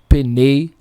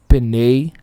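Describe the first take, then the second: Both takes have the same delivery.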